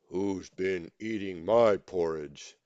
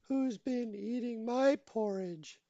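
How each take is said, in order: First: It is said in a deep, gruff voice. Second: It is said in a medium-pitched voice.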